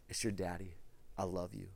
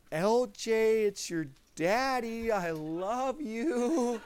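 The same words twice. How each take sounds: First: Soft tender repeat. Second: Put-on higher, slow, smiling first words to the baby; tender hello to newborn. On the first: Retold or imitated. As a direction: lower and much softer, hushed comfort. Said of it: "I just begin to again". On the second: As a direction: greet her gently with a laugh in the voice. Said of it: "So I was like".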